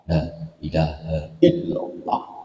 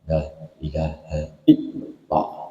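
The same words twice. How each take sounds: Both takes have the same delivery.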